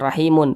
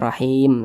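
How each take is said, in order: First: The word ends with an added -un ending. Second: The word ends on a silent final m. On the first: The speaker calls it wrong. "jangan rahimun" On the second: The speaker calls it right. "tapi kita baca rahim"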